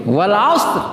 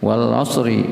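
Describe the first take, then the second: First: "Wal asr" ending on a bare stopped r; "Wal asr" cut off on the r. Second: "Wal asri" with a short i sounded after the r; "Wal asri" ending on an extra i, the r made thin; with added vowel. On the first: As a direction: close "Wal asr" on the r with no vowel after it. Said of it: "wal asri itu". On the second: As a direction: say "Wal asri" with a light i closing the r. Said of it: "wal asri itu ya, rohnya ada masuk, tipiskan". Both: Shown as a demonstration.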